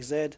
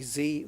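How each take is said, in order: First: The letter is said the non-American way. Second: The letter is said the American way. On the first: "we we say Z" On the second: "you guys say Z"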